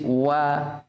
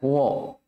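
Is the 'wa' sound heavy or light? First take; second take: light; heavy. First: The vowel is light and thin. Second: The vowel is heavy and darkened. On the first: The speaker calls it right. "Jadi wa-nya di situ tipis wa" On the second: The speaker calls it wrong. "jangan sampai wa-nya terkadang orang baca wa"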